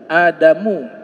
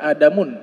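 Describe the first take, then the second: First: The name ends in a plain u vowel. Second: The name ends in un with an n. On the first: The speaker calls it right. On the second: The speaker calls it wrong. "tidak boleh dibaca Adamun"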